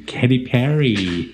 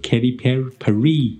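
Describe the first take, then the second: First: Katy Perry, slowly, PERR-y front-stressed; slow, deliberate PERR-ee for Perry; correct name. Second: Katy Perry, ending Perry as puh-REE; Perry broken off, then redone as puh-REE; mispronounced name. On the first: DJ declaring how they said it ever after, correctly pronounced. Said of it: "我就从此就念". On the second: DJ owning up to the early mistake, mispronounced. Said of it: "念成". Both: Shown as a demonstration.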